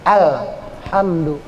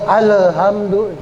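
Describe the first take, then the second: First: The L is held still with no vowel. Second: The L is bounced with an added vowel. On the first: The speaker calls it right. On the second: The speaker calls it wrong.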